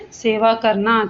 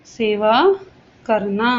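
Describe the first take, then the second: First: Said in the usual way. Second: Each word set apart by long pauses; spaced teaching demonstration. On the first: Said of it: "ये देखिए". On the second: Shown as a demonstration. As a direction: spell out सेवा, then करना, slowly and separately. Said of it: "ये देखिए सेवा".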